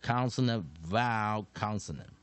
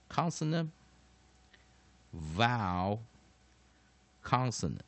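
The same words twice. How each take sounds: First: Said in the usual way. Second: Consonant, vowel, consonant spaced out with long pauses; word by word. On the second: Shown as a demonstration. Teacher showing students the pattern, consonant, vowel, consonant word by word.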